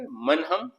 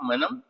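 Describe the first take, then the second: First: It is said as two separate full words. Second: It is said as one contracted word.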